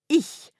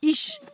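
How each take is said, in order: First: It ends with a soft, hissing breathy sound. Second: It ends with a 'sh' sound, as in niche. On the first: The speaker calls it right. "Écoutez bien" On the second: The speaker calls it wrong. "pour les Français, ce son se prononce « ich », comme dans « Niche"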